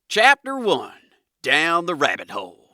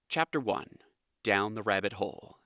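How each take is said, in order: First: It is read in an American Southern accent. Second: It is read in a neutral, flat narrator accent. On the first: "we're going to go with a southern accent just to be silly" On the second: "That kind of generic, monotone narrator voice"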